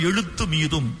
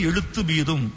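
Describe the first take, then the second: No difference in how they are said.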